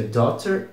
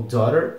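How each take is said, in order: First: "daughter" with a clear T in the middle. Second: "daughter" with a tapped R-like middle, like "dorer"; daughter with flap. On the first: Teacher repeats the first of two pronunciations, "daughter" with sounded T. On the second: Teacher repeats the second of two pronunciations, "daughter" with tapped middle. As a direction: soften the T of "daughter" into a quick tap. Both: Shown as a demonstration. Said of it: "se pronuncia daughter ou daughter".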